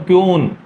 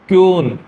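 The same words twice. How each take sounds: First: It begins with a ky sound and long oo. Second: It begins with a ky sound and long oo.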